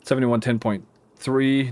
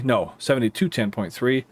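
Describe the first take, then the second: First: Said in the usual way. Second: Seventytwo stressed, with a rising tune; correcting stress on seventytwo. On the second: Real, not acted. Correcting his own order number, seventytwo stressed. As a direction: lean on seventytwo to fix the slip.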